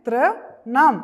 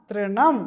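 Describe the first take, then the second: First: Louder rising model of തൃണം; teacher models തൃണം for the children; loud model word. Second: Said in the usual way. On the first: Shown as a demonstration. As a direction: say തൃണം loud and clear for the class. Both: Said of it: "എങ്ങനെ വായിക്കുന്നേ".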